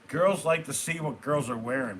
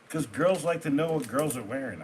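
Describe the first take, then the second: First: It is said forcefully, with command. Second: It is said casually, without force.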